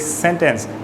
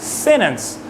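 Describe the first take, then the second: First: The T is fully released. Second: The T is stopped in the throat. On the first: "not really sentence" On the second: "They pronounce it sentence"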